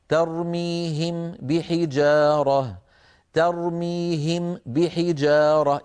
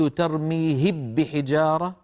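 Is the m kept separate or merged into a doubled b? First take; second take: separate; merged. First: The lips close separately for m and b. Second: The m merges into a doubled b sound. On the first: "أطبق شفتي للميم ثم أعود فأطبقهما مرة أخرى" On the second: "أكون قد أدغمت الميم في الباء، وهذا لا يفعله أحد"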